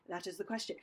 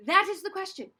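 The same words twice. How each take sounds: First: Low, soft line reading; quiet, lowered practice take; hushed take. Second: Higher line, projected out; bold, raised-voice practice take. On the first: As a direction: drop the voice right down. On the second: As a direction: punch it out as a rehearsal line. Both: Shown as a demonstration. Drill with contrasting takes.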